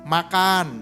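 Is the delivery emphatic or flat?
flat. It is said in a flat, neutral way. It is a plain message.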